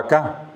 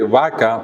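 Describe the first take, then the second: First: Vaca said vaCÁ, stressed at the end; acento final. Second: Vaca stressed on VA; acento llano. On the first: (vaca con acento final: vacá) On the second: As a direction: lean on the first syllable of vaca. (vaca con acento en VA) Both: Shown as a demonstration. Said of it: "pasó a vaca".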